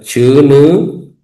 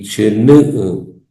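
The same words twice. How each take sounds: First: The u vowel is held long. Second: The u vowel is kept short. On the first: "con la vocal larga u" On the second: "con vocales cortas"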